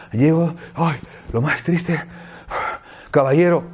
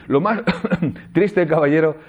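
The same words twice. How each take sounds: First: Breathless, gasping reading of lo más triste, caballero; panting. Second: Coughing through lo más triste, caballero, with a laugh. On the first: Teacher demoing a mood for students, breathless and panting. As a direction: say it as if you just arrived out of breath. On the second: Teacher demoing the verse for students, interrupted by coughs. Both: Shown as a demonstration.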